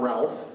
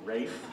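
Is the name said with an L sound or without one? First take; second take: with L; without L. First: The name is said with an L sound, like Ralf. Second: The name is said without an L, like Rayf. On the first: The speaker calls it wrong. "It's not Ralph" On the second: The speaker calls it right. "it's Rafe"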